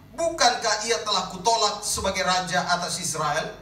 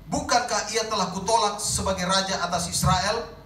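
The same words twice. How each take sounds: The two takes are said the same way.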